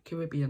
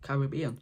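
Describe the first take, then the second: First: The word is said in a quick, natural form. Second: The word is said in a slow, careful form. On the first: "if I'm speaking really fast" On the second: "if I'm speaking slow"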